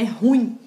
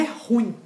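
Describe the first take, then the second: First: "Ruim" in two syllables, ru-IM; stress on second syllable. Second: Mistaken "ruim" as RU-im; stress on first syllable. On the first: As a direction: put the weight on the "im" of "Ruim". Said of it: "tá no in". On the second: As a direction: put the weight on the "ru" of "ruim". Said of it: "A tonicidade não tá no ru". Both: Shown as a demonstration.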